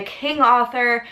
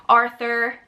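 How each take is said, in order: First: Arthur with a New York accent, r dropped, "aw" vowel. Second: Said in the usual way. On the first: Real, not acted. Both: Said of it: "my little New York accent comes out".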